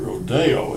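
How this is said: It is said with a Spanish pronunciation. "the Spanish pronunciation would be rodeo"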